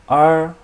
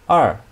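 First: The pitch stays high and level. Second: The pitch falls sharply from high.

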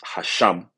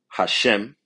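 First: The second vowel sounds like 'ah'. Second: The second vowel sounds like 'eh'. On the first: The speaker calls it right. "which is really pronounced Hasham" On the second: The speaker calls it wrong. "this is how they say the name of the Lord"

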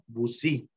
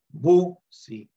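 First: The high tone is on the second syllable. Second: The high tone is on the first syllable. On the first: This is the Cabécar form of the word. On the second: This is the Bribri form of the word.

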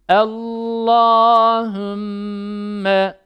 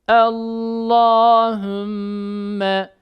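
No difference in how they are said.

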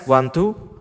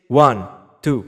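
First: The voice sounds echoey with added reverb. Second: The voice sounds dry with no reverb. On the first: "Sekarang kita coba tambahin reverbnya ya" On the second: "Ini tanpa reverb sama sekali seperti ini"

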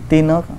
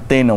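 First: The word is said softly, with a gentle tone. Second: The word is said harshly, with an angry tone. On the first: The word refers affectionately to a wife. "Lembut kan sebut tu" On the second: The speaker is angry at the woman. "Kalau kita nak marah ... tina tu kasar lah tu"

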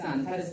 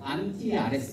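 First: It is said fast with syllables run together. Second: It is said slowly with every syllable apart. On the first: "안티아레스를 빨리 읽으면" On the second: "이름을 둘로 나눠서 읽을 수 있어요"

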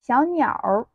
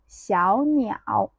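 First: The word ends with an r-colored sound. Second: The word ends without an r-colored sound.

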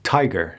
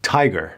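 The two takes are said the same way.

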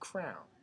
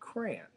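First: Crayon is said like the word crown. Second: Crayon is said with two syllables, cray-on. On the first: This is how people in the Midland say it. "In the Midland, most people say crown" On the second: This is how people elsewhere say it. "In everywhere else in the world, they say crayon"

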